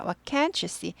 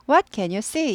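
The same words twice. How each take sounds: First: "can't" stressed against the plain can. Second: Said in the usual way. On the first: Shown as a demonstration. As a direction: punch "can't", let the end fall. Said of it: "Can't는 강조돼요". ("can't"를 강하게) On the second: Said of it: "이렇게 되죠".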